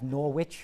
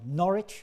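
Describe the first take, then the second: First: It is pronounced the American way. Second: It is pronounced the English way. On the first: This is the Connecticut town's name. "we have Norwich" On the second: This is how the name is said in England. "as it's pronounced in England"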